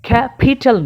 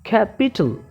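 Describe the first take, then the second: First: The p is said with a strong puff of air. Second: The p is said without a puff of air. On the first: The speaker calls it wrong. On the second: The speaker calls it right.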